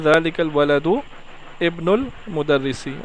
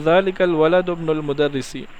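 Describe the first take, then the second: First: Words are separated, with the glottal stop pronounced. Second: Words run together, with the glottal stop dropped. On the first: "समझने के लिए अलग अलग कर सकते हैं" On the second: "इकट्ठा पढ़ेंगे एक ही जुमले में"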